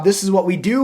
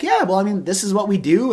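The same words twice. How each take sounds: First: Upbeat, eager delivery of This is what we do; hyped-up pitch. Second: Downplay it, don't wag your tail; cool and casual. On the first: Salesman gushing about his job to a recruit, excited. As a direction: sell it like you love your job. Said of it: "super hype about what my job is". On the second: Recruiter staying calm when the prospect asks about hiring, unexcited. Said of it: "I don't wag my tail like a dog, like, getting all excited". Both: Retold or imitated.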